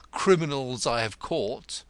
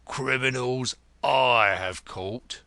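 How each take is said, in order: First: Said in the usual way. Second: "I" drawn out and punched loud; stress on I. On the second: Acted. Grodman correcting who caught the criminals, "I" stressed hard. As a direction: correct him with a slow, heavy "I". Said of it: "corrected Grodman".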